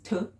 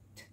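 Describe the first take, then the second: First: The consonant sound is said loudly. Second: The consonant sound is said quietly. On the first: The speaker calls it wrong. "Notice I don't say T says T. It's not a loud sound" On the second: The speaker calls it right. "It's a very quiet T"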